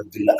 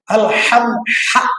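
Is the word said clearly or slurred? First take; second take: slurred; clear. First: The syllables are rushed and slurred together. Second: Every syllable is said clearly and fully. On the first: The speaker calls it wrong. "Apa ini dullah, dullah, dullah?" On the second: The speaker calls it right. "Harus fasih mengucapkannya"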